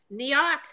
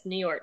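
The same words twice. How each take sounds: First: Lightly mocked New York accent. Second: Said in the usual way. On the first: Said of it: "make fun of her and her New York accent". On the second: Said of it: "but yes".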